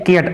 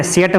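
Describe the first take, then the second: First: કેટ with a hard k at the start; correct pronunciation. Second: સેટ with an s in place of k; wrong pronunciation. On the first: Teacher showing students how CAT is read, કેટ with a k sound. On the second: Teacher asking if anyone misreads CAT, સેટ with an s sound. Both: Shown as a demonstration. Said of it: "કોઈ આને સેટ વાંચ્યું".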